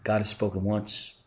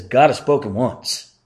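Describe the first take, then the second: First: Said in the usual way. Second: God has spoken once, read out louder and firmer; stress on God. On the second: Shown as a demonstration. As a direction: lean on God as scripture. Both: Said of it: "there's an emphasis here".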